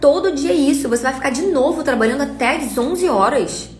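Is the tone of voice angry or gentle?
angry. It is said in a harsh, angry tone. "nesse tom"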